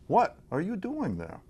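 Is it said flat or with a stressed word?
stressed word. One word is clearly stressed to change the meaning.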